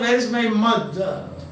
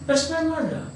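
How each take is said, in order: First: The words where and is are said separately. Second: Where and is are contracted into one syllable. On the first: The speaker calls it wrong. "You don't say" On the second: The speaker calls it right. "Or rapid speaking"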